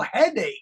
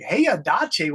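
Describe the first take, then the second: First: The word begins with a short 'hed' sound. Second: The word begins with a 'hey-ya' sound. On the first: The speaker calls it right. "He couldn't say headache" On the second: The speaker calls it wrong. "He pronounced it Heyadache"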